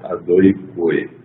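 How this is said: Said in Ashkenazi pronunciation, with 'oi' vowels.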